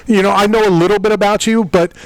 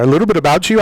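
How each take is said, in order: First: Host slides into an Irish accent, pitched higher; slipped Irish accent. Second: Said in the usual way. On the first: Real, not acted. Host unwittingly copying the Irish fighter's accent. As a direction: let a Northern Irish lilt creep in by accident. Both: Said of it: "I almost sounded like him there".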